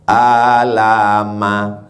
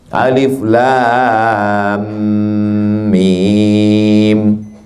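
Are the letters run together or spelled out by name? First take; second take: run together; spelled out. First: The letters are run together into one short word. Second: Each letter is spoken by its full name. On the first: It is read from the script alone, without a teacher. The speaker calls it wrong. "Gimana cara baca itu? Alama" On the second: It is read as learned from a teacher. The speaker calls it right. "Karena baca Quran itu berguru"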